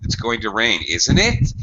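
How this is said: The pitch rises at the end of the tag. The speaker is not sure and is really asking. "I have rising intonation at the end of the sentence"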